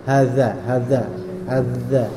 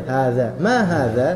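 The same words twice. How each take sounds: First: Lower-pitched "Hadza", tongue pushed too far out, Javanese-style; overdone Javanese-style dzal. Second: Said in the usual way. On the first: Shown as a demonstration. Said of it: "mirip kayak orang Jawa". ("Hadza" terlalu keluar, mirip orang Jawa) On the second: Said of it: "Tapi biasa aja".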